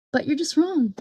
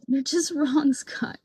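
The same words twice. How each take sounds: First: Said in the usual way. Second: Laughing through the word wrong. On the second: Real, not acted. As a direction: break into a laugh mid-verdict. Repeated verdict, now laughing.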